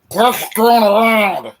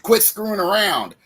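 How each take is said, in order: First: It is said in a put-on tobacco-chewing voice. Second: It is said in his normal voice.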